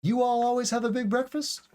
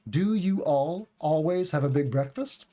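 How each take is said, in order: First: High-pitched question rising on "breakfast". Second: "Do" leads, "breakfast" rises at the end; full question at usual pitch, rising on "breakfast". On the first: Teacher drops "do" for learners, question by tone. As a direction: ask it with melody alone, lifting "breakfast". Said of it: "So you can hear the tone". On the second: Teacher shows learners the question word, full question tone. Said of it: "Do is the question word". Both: Shown as a demonstration.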